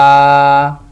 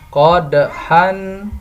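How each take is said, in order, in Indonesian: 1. Kata ini berakhir dengan vokal yang dipanjangkan. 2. Kata ini berakhir dengan bunyi n.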